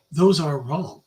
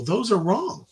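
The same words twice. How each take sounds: First: "those" punched, rest flat; stress on those. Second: "wrong" lifted with a rising tune; stress on wrong. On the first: Preacher correcting himself, punching "those". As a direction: hit "those" hard. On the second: Preacher correcting the video, stressing "wrong". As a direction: land on "wrong", let it rise. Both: Shown as a demonstration.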